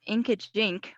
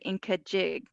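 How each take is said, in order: First: The name ends with a nasal 'jink' sound. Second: The name ends with a plain 'jig' sound. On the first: The speaker calls it wrong. "I was pronouncing it wrong" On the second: The speaker calls it right. "it's actually Inkajig"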